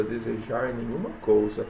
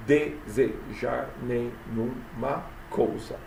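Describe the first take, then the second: First: Said in the usual way. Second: "Desejar nenhuma coisa" very slow, each syllable apart. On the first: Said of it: "Olha aí a, a poesia". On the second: Shown as a demonstration. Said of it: "até a sílaba tônica". ("Desejar nenhuma coisa" escandido, bem devagar)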